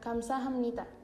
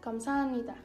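First: Every syllable, including hap, is clearly pronounced. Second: It runs together and the hap sound fades. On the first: "Esta es la pronunciación correcta" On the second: "suelen decirlo de corrido y se pierde un poquito el sonido de hap"

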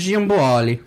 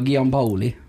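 First: The name is said with Italian pronunciation. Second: The name is said with Trøndelag pronunciation. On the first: "ikke sånn italiensk" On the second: "det må ha trøndersk preg"

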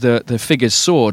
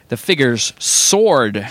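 First: It is said with a British, non-rhotic pronunciation. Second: It is said with an American, rhotic pronunciation. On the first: "that's a very UK-only thing" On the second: "in America, the pronunciation of the first word ... would be"

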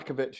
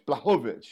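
First: The name is pronounced the British way. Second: The name is pronounced the Polish way. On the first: "In British" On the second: "Let's do it in Polish"

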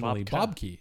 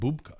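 First: The name ends with a 'key' sound. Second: The name ends with a 'ka' sound. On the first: This is the usual American way of saying it. The speaker calls it wrong. "everybody calls him Bob Key because we're Americans" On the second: This is how the name is meant to sound. The speaker calls it right. "It was supposed to be like Bubka"

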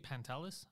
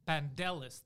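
First: The middle consonant is a T sound. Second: The middle consonant is a D sound. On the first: "if you say Pantelis, I'm fine" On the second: "They'll say pan and then a D"

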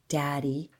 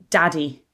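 First: It is said in a creepy voice. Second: It is said in a normal voice.

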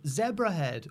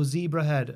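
First: The name is said in a British way. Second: The name is said in an American way.

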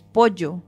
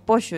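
First: It is said with a Spanish accent. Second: It is said with an Argentine accent.

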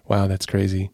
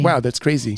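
First: The tone sounds sad and sympathetic. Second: The tone sounds puzzled and baffled. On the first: Responding to sad news. "Because if it's sad, it's like" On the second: Responding to something puzzling. "Or if it's something baffling"

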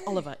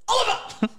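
First: The name is said flatly and plainly. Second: The name is said with loud exclamatory excitement.

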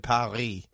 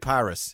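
First: Paris is pronounced with a French-style accent. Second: Paris is pronounced with an English-style accent. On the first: The speaker adopts the foreign pronunciation. The speaker calls it wrong. "You don't need to say Paris" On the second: The speaker keeps their own native pronunciation. The speaker calls it right. "Just say Paris"

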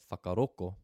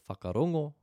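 First: The last consonant is a k sound. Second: The last consonant is an ng sound. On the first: "They replace that instead with a K" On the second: "So instead of whakarongo"

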